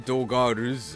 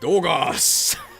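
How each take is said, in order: First: An R sound is pronounced before the final s. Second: No R sound is pronounced before the final s. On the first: The speaker calls it wrong. "you don't say Dogars" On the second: The speaker calls it right. "it's Dogas!"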